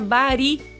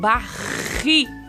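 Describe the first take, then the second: First: The r is a soft, light single tap. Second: The r is a strong, trembling trill. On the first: The speaker calls it wrong. "Se eu colocar um R só, vai ficar bari" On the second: The speaker calls it right. "eu quero barri"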